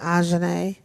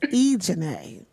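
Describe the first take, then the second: First: The name is given a French-sounding pronunciation. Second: The name is given a plain, non-French pronunciation. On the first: The speaker calls it wrong. "I've given you a French name" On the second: The speaker calls it right. "so it's Ejanae"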